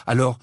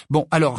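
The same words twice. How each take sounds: First: Said in the usual way. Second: «alors» lâché sec, plus haut, en finale descendante; «alors» appuyé et tombant, agacé; irrité. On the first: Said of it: "répondit-il". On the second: Acted. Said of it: "d'un air irrité". (Harry, irrité, se tourne vers Luna, «alors» appuyé)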